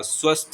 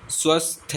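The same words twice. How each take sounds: First: स्वस्थ ending straight on "sth"; no vowel after the th of स्वस्थ; correct closed ending. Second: स्वस्थ ending in "-thay", as "swasthe"; wrong added vowel. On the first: Teacher giving the correction, स्वस्थ closed on "sth". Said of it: "स्वस्थ होता है". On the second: Teacher showing the mistake, स्वस्थ with an extra final e. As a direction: add an "e" after स्वस्थ. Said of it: "स्वस्थ नहीं होता". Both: Shown as a demonstration.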